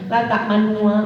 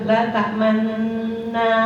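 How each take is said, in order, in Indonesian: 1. Bunyi sengau di tengah dipotong pendek. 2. Bunyi sengau di tengah ditahan lebih lama. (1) "kadang-kadang gini ibu susahnya" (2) "ditahan dulu gunanya"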